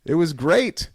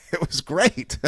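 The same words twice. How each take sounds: First: Said in the usual way. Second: Said through a laugh; chuckling as the words come out. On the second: Real, not acted. To the listeners, about Harley moving out, laughing.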